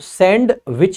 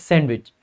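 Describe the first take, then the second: First: The d is clearly pronounced between the parts. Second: The d is only lightly sounded, almost silent. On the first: The speaker calls it wrong. "So सैंड विच नहीं पढ़ते" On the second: The speaker calls it right. "हल्का सा sound आता है डी का just"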